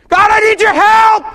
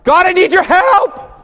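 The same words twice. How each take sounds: First: It is screamed at full volume. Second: It is said noticeably louder than normal. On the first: "Maybe I'll scream it" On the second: "this time I'm going to pray it louder"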